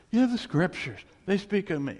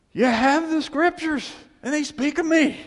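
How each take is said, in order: First: Calmer repeat. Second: Proclaiming. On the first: Repeats the quote more calmly. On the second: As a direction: thunder it out to the Pharisees. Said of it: "he goes". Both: Retold or imitated.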